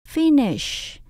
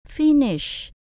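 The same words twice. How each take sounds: First: The stress is on the first syllable. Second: The stress is on the first syllable.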